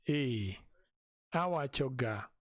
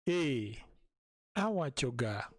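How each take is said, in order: Both takes have the same delivery.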